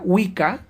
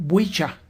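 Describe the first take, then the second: First: Said in the usual way. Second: "Wicca" said with a ch sound, WEE-cha; old English pronunciation. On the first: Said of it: "la palabra Wicca se pronunciaba como". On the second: Shown as a demonstration. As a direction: say "Wicca" as "wicha", ch replacing the k. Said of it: "se pronunciaba como".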